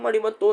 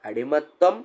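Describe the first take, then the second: First: The word ends with a 'tvam' sound. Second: The word ends with a 'ttam' sound. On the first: The speaker calls it wrong. "പക്ഷെ അത് തെറ്റാ" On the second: The speaker calls it right. "അടിമത്തം ആണ്"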